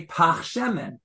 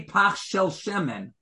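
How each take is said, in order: First: "pach shemen" said firmly, falling at the end; right form. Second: "pach shel shemen" given as the form you wouldn't use; wrong form. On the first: Teacher giving the proper Hebrew phrasing, firm. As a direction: settle on "pach shemen" as the correct way. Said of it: "You would say". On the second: Teacher showing the phrasing Hebrew speakers avoid, plain. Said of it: "You wouldn't say". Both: Shown as a demonstration.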